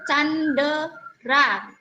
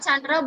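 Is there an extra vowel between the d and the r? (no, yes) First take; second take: yes; no. First: An extra vowel is heard between d and r. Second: The d and r join with no vowel between. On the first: The speaker calls it wrong. "boya ja Candera" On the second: The speaker calls it right. "nyera Chandra"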